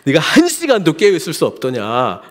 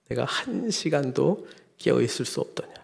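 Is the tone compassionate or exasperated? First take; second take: exasperated; compassionate. First: It sounds exasperated and scolding. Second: It sounds gentle and full of pity. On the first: The listener is fed up with the disciples. "정말 언제까지 너 이럴래? 이런 어조를 한" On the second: The listener feels pity for the disciples. "정말 불쌍히 여기면서"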